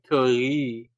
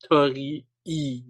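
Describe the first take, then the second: First: The final vowel is one smoothly lengthened sound. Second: The final vowel is split into a separate syllable. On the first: The speaker calls it right. "He should have said like Tori" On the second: The speaker calls it wrong. "he called it a Tori-E gate, but that's really bad"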